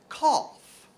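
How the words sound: It is said with a British accent.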